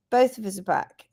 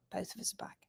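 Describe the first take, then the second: First: Said in the usual way. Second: Hushed whisper. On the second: Shown as a demonstration. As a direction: whisper it secretly. Whispered aside then repeated.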